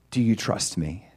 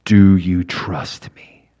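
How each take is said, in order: First: Said in the usual way. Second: Low, slow, calm voice of God; God's voice. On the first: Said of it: "And he says". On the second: Retold or imitated. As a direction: let each word land slowly and low. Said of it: "And God says".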